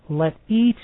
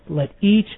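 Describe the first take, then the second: The two takes are said the same way.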